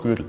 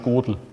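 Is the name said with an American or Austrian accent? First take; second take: Austrian; American. First: The name is said with an Austrian accent. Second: The name is said with an American accent. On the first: The speaker calls it right. "aber Kurt Gödel" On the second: The speaker calls it wrong. "Oder auf amerikanisch Gödel"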